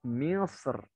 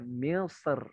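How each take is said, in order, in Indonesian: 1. Huruf r dibaca tipis dan ringan. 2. Huruf r dibaca tipis dan ringan.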